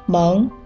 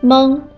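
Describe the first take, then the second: First: The syllable is said with a rising tone. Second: The syllable is said with a high level tone. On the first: "二声" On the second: "一声"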